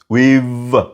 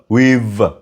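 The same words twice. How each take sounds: First: The words merge into one contracted syllable. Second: The same.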